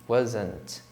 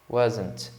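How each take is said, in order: Both takes have the same delivery.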